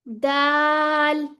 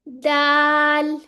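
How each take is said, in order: First: It is said thinly with lips slightly stretched. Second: It is said thinly with lips slightly stretched.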